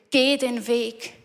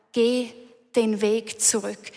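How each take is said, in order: First: "Geh" leaned on, whole line slow and deliberate; stress on Geh, slow. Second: Said in the usual way. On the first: Shown as a demonstration. Preacher urging the congregation home, slow stress on "Geh". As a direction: draw out "Geh den Weg", hitting "Geh".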